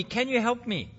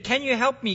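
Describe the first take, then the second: First: The plea dropped quieter; softer pleading. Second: A touch of a frightened plea; understated cry for help from the cliff; mild pleading. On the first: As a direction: repeat the plea more softly. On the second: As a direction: ask for help lightly imploring. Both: Acted. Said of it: "The tourist pleaded".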